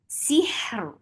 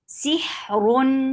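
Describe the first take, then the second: First: The word stops short on the final consonant. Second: The word ends with a vowel and n sound. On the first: The reader pauses at this word. "सुकून महद के साथ" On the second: The word continues into the next word. "ये वसल की सूरत में पढ़ा"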